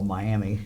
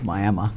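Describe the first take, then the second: First: It uses the visitors' usual Ohio pronunciation. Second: It uses the local Oklahoma residents' pronunciation. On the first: This is how outsiders say the name. The speaker calls it wrong. "what we would call Miami" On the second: This is how the town's residents say the name. The speaker calls it right. "we were mispronouncing it. It was Miami"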